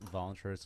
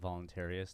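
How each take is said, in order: First: The word is said with fewer syllables. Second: The word is said with an extra syllable. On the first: The speaker calls it right. "I like the fact that you use voluntarist" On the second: The speaker calls it wrong. "there's too many goddamn syllables when people say that"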